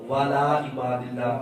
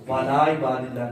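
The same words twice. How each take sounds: First: The opening is run together as 'wala'. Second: The same.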